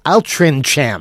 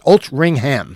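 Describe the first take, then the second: First: The name is sounded out the way it's spelled. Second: The name is said unlike its spelling. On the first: The speaker calls it wrong. "It's spelled Altrincham" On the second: The speaker calls it right. "But it's pronounced Altrincham"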